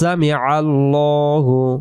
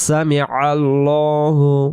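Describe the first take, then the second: First: The L in Allahu is heavy and rounded. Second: The same.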